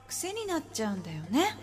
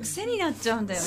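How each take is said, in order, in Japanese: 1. 声にエコーがかかってるよ。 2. 声はドライで、エコーはかかってないよ。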